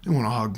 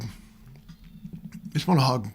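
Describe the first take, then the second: First: Said in the usual way. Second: Slow right down and let "want" land; drawn-out emphasis. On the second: Real, not acted. Telling angry young men online what they need, slow and emphatic. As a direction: stretch out "They just want a hug" very slowly, leaning on "want".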